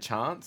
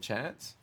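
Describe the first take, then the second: First: It is said in an Adelaide accent. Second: It is said in a non-Adelaide accent. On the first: "people from Adelaide say chance" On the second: "instead of chance"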